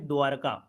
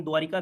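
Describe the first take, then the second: First: "द्वारका" with no i vowel after र; "द्वारका" said as dwaar-ka, r straight into ka; correct pronunciation. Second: "द्वारिका" with an i vowel after र; "द्वारिका" as people commonly say it, with the extra i; wrong common pronunciation. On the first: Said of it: "होता है द्वारका". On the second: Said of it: "लेकिन द्वारिका गलत होता है". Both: Shown as a demonstration.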